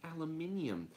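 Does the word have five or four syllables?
five. The word is said with five syllables. "British English it would be aluminium"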